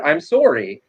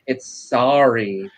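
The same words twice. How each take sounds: First: "sorry" said SORE-ee; "sorry" with a Canadian OR vowel. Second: "sorry" said SAH-ree, drawn out; slow, careful "sorry" with an AH vowel; New York "sorry". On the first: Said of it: "apparently more Canadian than I realized". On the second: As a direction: open the first vowel of "sorry" to AH, slowly. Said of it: "I have to remind myself". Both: Shown as a demonstration.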